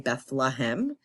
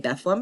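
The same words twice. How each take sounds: First: It is pronounced the way outsiders say it. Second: It is pronounced the way local residents say it. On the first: The speaker is not from the town. "If you're not from there, you say Bethlehem" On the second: The speaker is from the town. "that's how you say it if you're from there"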